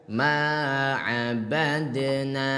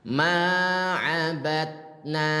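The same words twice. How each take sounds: First: The d is released with a slight bounce. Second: The d is stopped without any bounce. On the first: The speaker calls it right. "cara baca pantulkan se sedikit" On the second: The speaker calls it wrong. "yang pertama tadi belum dipantulkan"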